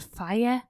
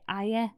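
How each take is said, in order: First: The word begins with an F sound. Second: The word begins without an F sound. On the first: "if you say the letter F for fire" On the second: "you just got to say"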